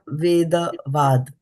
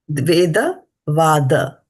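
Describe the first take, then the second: First: The last word ends without its final vowel. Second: The last word ends with a clear final vowel. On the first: The speaker calls it wrong. "Not Veda Vad" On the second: The speaker calls it right. "There's a A here"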